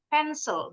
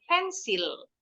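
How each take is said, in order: First: The second syllable has a short i sound. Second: The second syllable has a long i sound. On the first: The speaker calls it right. "I-nya ini bunyi I yang pendek" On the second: The speaker calls it wrong. "bukan pensil"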